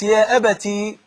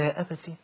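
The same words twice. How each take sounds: First: It is said loudly, ending on a long vowel. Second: It is said softly, ending on a short vowel. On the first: He speaks openly in front of people. "لو كانت باليه يبقى معناها إن هو كان بيتكلم وبصوت عالي وسط الناس" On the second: He speaks shyly and respectfully to his father. "كان صوت واطي وبيتكلم بالراحة"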